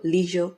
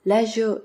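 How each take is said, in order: First: Leisure with a long ee, leezhure; American pronunciation. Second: Leisure with a short e, lezhure; British pronunciation. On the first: Listing differences for listeners, leisure the American way. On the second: Listing differences for listeners, leisure the British way. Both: Shown as a demonstration. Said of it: "Same are the differences between".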